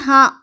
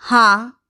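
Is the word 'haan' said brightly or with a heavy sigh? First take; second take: brightly; heavy sigh. First: It is said brightly, without any sigh. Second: It is drawn out on a long, heavy sigh. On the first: The person is truly fine. The speaker calls it right. "जब ठीक होते हैं तो कहते हैं" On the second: The person is not really fine. The speaker calls it wrong. "लंबा श्वास उठाकर कहते हैं"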